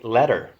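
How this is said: The final R sound is clearly pronounced. "But they say letter"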